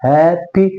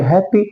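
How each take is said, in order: First: "happy" drawn out as हैप-पी; teacher sounding out both syllables of "happy"; syllable split. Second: Said in the usual way. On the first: Shown as a demonstration. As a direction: break "happy" into two beats, हैप then पी. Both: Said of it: "पी तो बोला लेकिन Y से बोला".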